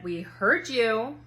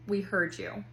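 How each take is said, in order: First: Drawn-out dismissal. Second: Said in the usual way. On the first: Retold or imitated. Daughter's flat dismissal.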